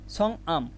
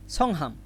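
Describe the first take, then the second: First: "সংআম" with no h, slowly split after the ng; silent h. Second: "সংহাম" with an audible h after the ng; h pronounced. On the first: Teacher explaining hieut is silent mid-word, h dropped in "সংআম". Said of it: "হিউত শুধু প্রথমে থাকলে এর উচ্চারণ হয়". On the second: Teacher showing learners the hieut sound, h pronounced in "সংহাম". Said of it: "এখানে হিউতের উচ্চারণ বলি তো". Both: Shown as a demonstration.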